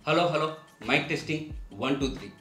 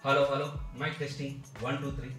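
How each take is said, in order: First: The voice comes from inside a box with holes. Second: The voice comes from inside a woodwool board box. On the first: "కన్నాలు ఉన్నటువంటి బాక్స్ని తల మీద పెట్టి మాట్లాడుతున్నాను"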